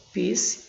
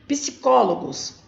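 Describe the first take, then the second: First: Psicólogos broken into PSI, CÓ, LO, GOS; syllable by syllable. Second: Psicólogos said whole with CÓ punched; stress on CÓ. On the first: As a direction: say Psicólogos with a pause after each syllable. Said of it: "Eu vou separar". (Psicólogos separado em sílabas, com pausas) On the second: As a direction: hit the CÓ in Psicólogos. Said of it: "a sílaba mais forte". (Psicólogos inteiro, com força no CÓ) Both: Shown as a demonstration.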